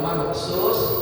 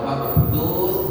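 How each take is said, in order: First: The middle consonant is a plain s sound. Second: The middle consonant is a th sound. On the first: The speaker calls it wrong. "Kalau mabthus sin" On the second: The speaker calls it right. "Kalau mabthus fa"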